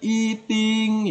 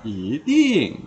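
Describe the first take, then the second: First: The first syllable does not have a rising tone. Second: The first syllable has a rising tone. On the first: The speaker calls it wrong. "Jadi bukan eating ya" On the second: The speaker calls it right. "tapi dibaca i nada kedua"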